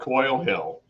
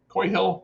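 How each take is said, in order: First: The first word ends with an L sound. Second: The first word ends without an L sound. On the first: The speaker calls it wrong. "I keep saying Coil, that's wrong" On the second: The speaker calls it right. "I'm saying it wrong"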